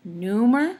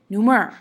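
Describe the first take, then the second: First: "Neumer" as NEU-mer with rising tune; NEU-mer, offered as the first option; stress on first syllable. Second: "neumer" as neu-MER, falling at the end; light "neu", punched "mer"; neu-MER, offered as the second option; stress on second syllable. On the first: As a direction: lean on NEU, lift the end as a choice. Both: Shown as a demonstration. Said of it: "Which one sounds right to you?".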